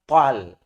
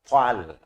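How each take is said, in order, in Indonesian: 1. Vokalnya terdengar terbuka, seperti 'a'. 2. Vokalnya terdengar terbuka, seperti 'a'.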